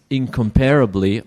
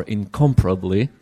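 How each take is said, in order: First: "incomparably" said as in-com-PAIR-ably; alternative pronunciation. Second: "incomparably" said as in-COM-pruh-bly; alternative pronunciation. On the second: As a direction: stress COM in "incomparably", shorten the rest. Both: Shown as a demonstration. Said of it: "incomparably or incomparably".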